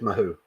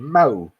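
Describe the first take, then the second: First: An H sound is heard between the vowels. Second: No H sound is heard between the vowels.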